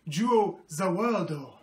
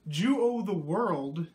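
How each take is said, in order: First: It is said with Japanese-style pronunciation. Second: It is said with plain English pronunciation.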